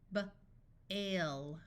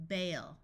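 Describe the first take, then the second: First: Short B, pause, then "ale"; sounded out. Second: Said in the usual way. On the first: Shown as a demonstration. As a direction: break "B-, ale" into separate sounds. Phonics teacher sounds out, then blends.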